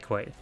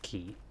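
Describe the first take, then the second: First: The word begins with a kw sound. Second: The word begins with a plain k sound. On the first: "I think you can say it both ways" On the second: "it is probably pronounced key"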